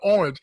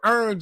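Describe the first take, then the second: First: It is said in a standard accent. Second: It is said in a Southern country accent.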